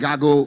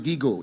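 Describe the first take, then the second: First: It is said with an American pronunciation. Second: It is said with a local, non-American pronunciation. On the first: "America call it GAGO" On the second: "We can pronounce it GIGO"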